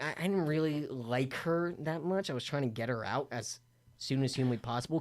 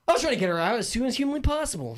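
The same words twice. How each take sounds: First: Low, soft aside; subdued admission. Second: High-pitched, fast and insistent; emphatic repeat. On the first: Guest confiding he wanted the houseguest gone, quiet and low. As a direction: keep it down, almost under your breath. First, muttered telling of his wish. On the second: Guest insisting he wanted the houseguest gone, high and rushed. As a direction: rattle it off high, driving the point home. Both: Real, not acted.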